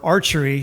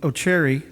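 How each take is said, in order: First: The name begins with an 'ar' sound. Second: The name begins with an 'oh' sound. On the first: The speaker calls it right. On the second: The speaker calls it wrong.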